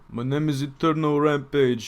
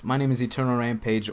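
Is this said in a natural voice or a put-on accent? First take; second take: put-on accent; natural voice. First: It is spoken in a put-on accent. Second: It is spoken in a natural accent.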